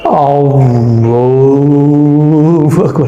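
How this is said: It is said in an exaggerated, over-careful way.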